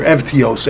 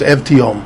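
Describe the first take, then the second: First: Evtios as ev-tee-ohs; "Evtios" closed with a sibilant, not m; samech ending. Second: Evtiom as ev-tee-ohm; "Evtiom" closed with m, not s; mem ending. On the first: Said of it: "with a Samich in the end". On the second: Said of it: "saying a Mem in the end". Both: Shown as a demonstration.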